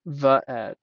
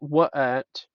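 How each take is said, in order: First: The word begins with a v sound. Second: The word begins with a w sound. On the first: The speaker calls it right. "every single word in Hebrew is pronounced with a V" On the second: The speaker calls it wrong. "not wa'et"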